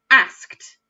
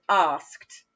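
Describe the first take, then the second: First: Asked with a flat short a. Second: Asked said as arsked with a long ah. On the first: Teacher shows children the northern asked with short a. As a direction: say asked with the a as in cat. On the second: Teacher shows children the southern asked with long ah. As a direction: stretch the a in asked like ah. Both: Shown as a demonstration. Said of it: "some people pronounce it as asked".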